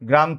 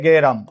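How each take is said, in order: First: The g and r sounds form a cluster. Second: A vowel is inserted between g and r. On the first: "গ্রাম থেকে" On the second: "অতিরিক্ত একটা একার আসছে"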